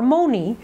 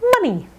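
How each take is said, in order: First: The first vowel is a full oh sound. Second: The first vowel is a short uh sound. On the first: The speaker calls it wrong. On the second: The speaker calls it right.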